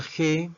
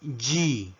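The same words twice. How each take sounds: First: Said in the usual way. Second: Letter G pronounced "jee"; English letter G. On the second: Shown as a demonstration. Teacher modelling the English alphabet, G as "jee". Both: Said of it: "La letra G".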